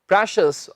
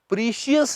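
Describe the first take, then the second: First: The first vowel is a short 'eh' sound. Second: The first vowel is a long 'ee' sound. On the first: The speaker calls it right. "इसका सही उच्चारण है प्रेशियस" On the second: The speaker calls it wrong. "प्रीशियस नहीं"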